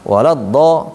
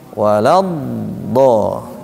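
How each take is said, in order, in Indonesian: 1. Suku kata terakhir diucapkan dengan cepat dan dipotong pendek. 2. Suku kata terakhir dipanjangkan dan mengalir. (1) "jangan cepat" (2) "tapi walad do"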